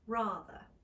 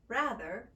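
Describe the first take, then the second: First: The vowel is a British 'ah' with a lower jaw. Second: The vowel is a flat, nasal American 'a'. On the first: "becoming a more slightly narrow sound, ah" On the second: "standard Americans would pronounce with the a vowel"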